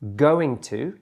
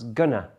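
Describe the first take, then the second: First: Both words are pronounced fully and separately. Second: The words are squeezed together into gonna. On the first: "That one's going to becomes" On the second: "becomes gonna"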